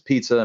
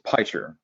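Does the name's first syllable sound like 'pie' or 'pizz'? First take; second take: pizz; pie. First: The first syllable sounds like 'pizz'. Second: The first syllable sounds like 'pie'. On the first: The speaker calls it wrong. "all kind of weird stuff" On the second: The speaker calls it right. "would you like some pie? Sure. And you just smash those two together"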